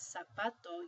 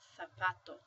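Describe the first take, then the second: First: The word begins with an s sound. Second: The word begins with a th sound. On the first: This is how most Spanish speakers say it. "instead of pronouncing this as zapato" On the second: This is how it is said in southern Spain. "you'd pronounce it zapato"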